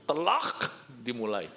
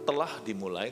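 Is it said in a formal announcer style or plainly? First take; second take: formal announcer; plainly. First: It is said in a formal, announcing tone. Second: It is said plainly, like ordinary talk. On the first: It makes visitors notice that the film has started. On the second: It only states that the film started. "Nggak cukup hanya berkata"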